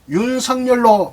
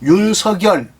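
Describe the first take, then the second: First: The middle consonant becomes a nasal sound. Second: The middle consonant carries over into the next syllable. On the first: It is the form the person is used to hearing. "본인은 윤석열로 많이 들어왔다고 하지만" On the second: It follows the standard linguistic rule. "국어학적으로는 윤석열 연음 법칙으로 발음을 해야 됩니다"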